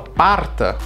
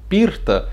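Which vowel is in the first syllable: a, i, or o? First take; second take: a; i. First: The first vowel sounds like a. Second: The first vowel sounds like i. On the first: "Eu vou falar parta, a pessoa não vai entender" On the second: "se eu mudar o O, eu não falo porta, eu falo pirta"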